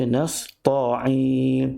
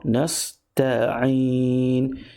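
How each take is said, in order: First: The t is a heavy, emphatic t sound. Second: The t is a plain, light t sound. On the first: The speaker calls it wrong. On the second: The speaker calls it right.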